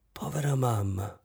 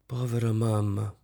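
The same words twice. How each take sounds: First: Softer, gentle repetition; gently. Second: Said in the usual way. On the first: Acted. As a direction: say it tenderly, softly. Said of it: "dolcemente ripeté".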